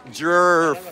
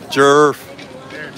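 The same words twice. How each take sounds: First: American accent. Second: Said in the usual way. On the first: Shown as a demonstration. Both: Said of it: "Say it in your American accent".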